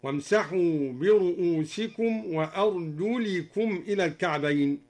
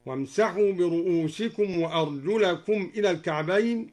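First: وأرجلكم read with a kasra on the lam, arjulikum. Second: Said in the usual way. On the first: Shown as a demonstration. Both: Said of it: "قرأ الدوري بخفض أرجلكم هكذا".

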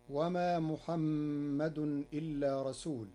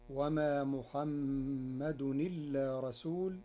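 First: Said in the usual way. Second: "محمد إلا" run together as muhammadu-nilla, no glottal stop; hamza vowel transferred. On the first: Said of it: "بنقل حركة الهمز". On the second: Shown as a demonstration. Teacher showing Warsh's reading, "محمد إلا" joined as muhammadunilla. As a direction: slowly link "محمد إلا" so the n takes the i. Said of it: "بنقل حركة الهمز إلى الساكن".

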